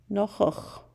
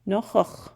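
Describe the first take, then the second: First: Nochoch again with a falling end; second nochoch, calm and final; repeated model word. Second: Nochoch, slow and clear with a throaty ch; Chukchansi word for uncle. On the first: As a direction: echo the word nochoch, settling down. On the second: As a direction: model the word nochoch for learners. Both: Shown as a demonstration. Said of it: "It's the word for uncle".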